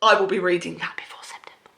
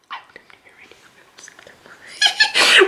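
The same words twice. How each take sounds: First: Whisper. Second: A tiny conspiratorial squeak; high squeaky whisper. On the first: Secret vow to viewers. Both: Real, not acted.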